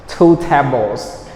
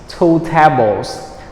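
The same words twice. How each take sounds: The two takes are said the same way.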